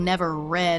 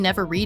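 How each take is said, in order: First: The word read rhymes with bed. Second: The word read rhymes with seed. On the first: Nobody has ever read them. "as in nobody has ever read them" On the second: Reading them is forbidden. "is like they're forbidden. You should never read them"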